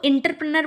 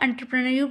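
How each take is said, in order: First: It begins with 'in' and ends in 'ner'. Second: It begins with 'en' and ends in 'nyor'. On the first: The speaker calls it wrong. "इसको इंटरप्रेनर बोलते हैं, ... इसका जो pronunciation है वो wrong है" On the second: The speaker calls it right. "एंटरप्रेन्योर बोला जाता है इसको"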